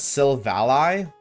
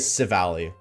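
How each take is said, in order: First: The first L sound is clearly pronounced. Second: The first L sound is left out. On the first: "you'd actually be saying it as Silvally" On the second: "Never said the L, the first L"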